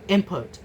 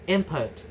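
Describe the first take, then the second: First: An m sound comes before the p. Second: The same.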